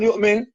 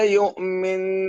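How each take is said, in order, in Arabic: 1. النون قصيرة بدون غنّة ممدودة. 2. النون مشددة وممدودة بغنّة. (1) "ما تقول يؤمن" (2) "نون مشدد ... بنشدد هذه النون هالشكل"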